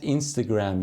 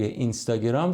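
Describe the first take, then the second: First: It is said with an English-style pronunciation. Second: It is said with a Persian-style pronunciation.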